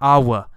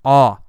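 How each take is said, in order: First: The word ends with an audible W sound. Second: The word ends with no W sound. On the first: The speaker calls it wrong. "You don't actually say a W sound. There's not awa" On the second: The speaker calls it right. "No, it's awe"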